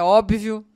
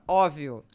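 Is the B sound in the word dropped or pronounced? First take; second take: pronounced; dropped. First: The B sound is clearly pronounced. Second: The B sound is dropped entirely. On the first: The speaker calls it right. "ao invés de falar é óbvio" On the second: The speaker calls it wrong. "Engoliu o B"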